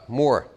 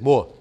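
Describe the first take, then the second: First: The final r sound is pronounced. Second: The final r sound is dropped.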